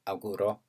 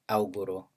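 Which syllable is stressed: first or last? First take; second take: last; first. First: The stress is on the last syllable. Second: The stress is on the first syllable. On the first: "final position" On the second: "stress at initial"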